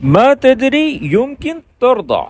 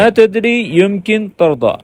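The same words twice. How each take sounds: First: Slow careful repeat. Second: Careful model line. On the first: Teacher echoing the dialogue clip for learners, slowly. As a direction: say ما تدري يمكن ترضى slowly, every word clear. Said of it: "repeats the played Arabic line". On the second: Teacher stressing good pronunciation to students, slow and precise. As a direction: say ما تدری يمكن ترضى slowly, each sound exact. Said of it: "pronunciation آپ نے اس کی بڑی اچھے سے کرنی ہے". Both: Shown as a demonstration.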